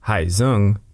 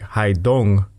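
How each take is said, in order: First: The name is said with a Vietnamese-style pronunciation. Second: The name is said with an American-style pronunciation. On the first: "what Google Translate tells me is the Vietnamese pronunciation" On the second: "would be called something like Haidong by Americans"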